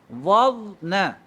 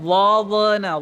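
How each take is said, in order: First: The middle consonant is held smoothly without bouncing. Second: The middle consonant is released with a bouncing echo. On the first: The speaker calls it right. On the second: The speaker calls it wrong.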